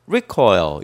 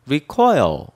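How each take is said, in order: First: The stress is on the first syllable. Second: The stress is on the second syllable. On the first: It is a noun meaning a rebound or kickback. "명사로 recoil 이렇게 앞에다 강세를 주면은" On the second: It is a verb meaning to draw back or retreat. "동사일 때는 recoil, coil에 강세를 둬요"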